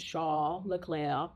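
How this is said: The name is said with a French pronunciation.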